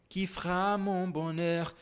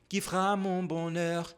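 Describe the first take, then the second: No difference in how they are said.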